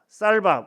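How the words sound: The first consonant is a tense s sound. This is how most speakers say it. "쌀밥 우리는 이렇게 할 수 있지만"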